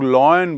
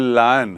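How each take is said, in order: First: The first vowel sounds like 'loy'. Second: The first vowel sounds like 'lie'. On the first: The speaker calls it wrong. "कई लोग लॉयन बोलते हैं, वो गलत है" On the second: The speaker calls it right. "ये लायन है"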